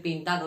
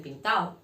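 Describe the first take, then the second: First: Said in the usual way. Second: "pintao" with the final d gone, pin-ta-o; "pintao", no d between a and o; dropped d. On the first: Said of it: "en vez de decir pintado". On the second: Shown as a demonstration. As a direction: say "pintao" the casual Andalusian way. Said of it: "dicen pintao".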